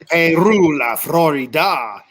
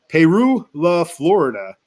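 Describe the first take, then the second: First: It is said in a Spanish-style Latino accent. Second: It is said in a rural American Southern accent. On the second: "That's the hillbilly way I say it"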